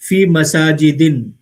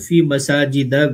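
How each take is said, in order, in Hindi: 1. आखिरी शब्द अंतिम n के साथ -in पर खत्म होता है। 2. आखिरी शब्द छोटे -a पर खत्म होता है। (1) "ये भी गलत है" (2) "उस पे ज़बर रहेगा"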